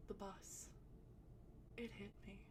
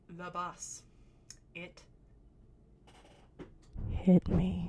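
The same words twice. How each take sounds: First: Soft, dazed and much softer; dazed murmur. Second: Building to a loud cry on "hit me"; insistent outburst. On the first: Stoned girl softly telling friends the bus hit her. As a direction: mumble it like you're barely there. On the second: Stoned girl insisting to laughing friends, ending in a loud cry. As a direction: start low, then blurt "hit me" out loud. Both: Retold or imitated.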